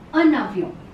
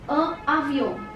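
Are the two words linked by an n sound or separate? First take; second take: linked; separate. First: An n sound links the two words together. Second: The words are said separately without an n sound. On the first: The speaker calls it right. "It is a navion" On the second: The speaker calls it wrong. "It is not pronounced like this"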